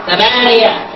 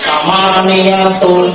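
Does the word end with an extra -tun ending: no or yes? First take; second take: no; yes. First: The word ends without a -tun ending. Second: The word ends with a -tun ending.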